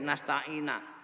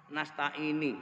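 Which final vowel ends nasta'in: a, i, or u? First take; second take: a; i. First: The word ends in an a vowel. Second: The word ends in an i vowel. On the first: "Yang kedua dibaca fathah" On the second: "Au kasroh"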